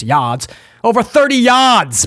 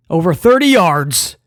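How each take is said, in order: First: Put-on playful Boston accent, R dropped in "yards". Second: Said in the usual way. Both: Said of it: "I don't know where that accent came from".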